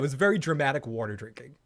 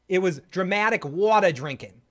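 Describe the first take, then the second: First: It is said in the speaker's usual accent. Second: It is said in a put-on Boston accent.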